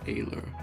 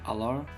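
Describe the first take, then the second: First: The word does not sound like 'Allah'. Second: The word sounds like 'Allah'. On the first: The speaker calls it right. "I think it's pronounced alar" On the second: The speaker calls it wrong. "like Allah Akbar"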